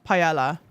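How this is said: The word is pronounced the British way. "Brits definitely pronounce paella"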